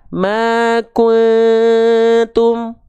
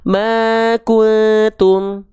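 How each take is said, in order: First: The nasal hum is held for a long moment. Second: The nasal hum is rushed and cut short. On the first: The speaker calls it right. "yang merah. dia ditahan dulu dengungannya dua harokat" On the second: The speaker calls it wrong. "Kalau yang biru, dia tergesa-gesa"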